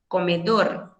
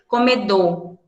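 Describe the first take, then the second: First: The final R is clearly sounded with vibration. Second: The final R is weak and barely heard. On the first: Every letter is pronounced carefully. The speaker calls it right. "Em espanhol, a gente vai ter sempre o cuidado de pronunciar cada letra direitinho" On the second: This is hurried everyday speech. The speaker calls it wrong. "na pressa, na fala do dia a dia, a gente fala assim"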